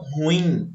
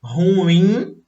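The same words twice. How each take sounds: First: Ruim stressed as RU-im; the incorrect "ruim", first syllable strong; paroxytone stress. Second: Ruim drawn out as ru-IM; the correct "ruim", slow ru-IM; oxytone stress. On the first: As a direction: hit RU in "ruim", short ending. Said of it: "poderiam pronunciar como paroxítonas". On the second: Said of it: "a sílaba mais forte". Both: Shown as a demonstration.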